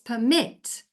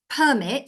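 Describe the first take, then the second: First: The stress is on the second syllable. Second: The stress is on the first syllable. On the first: "and the stress is on the mit" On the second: "so the stress is on the per"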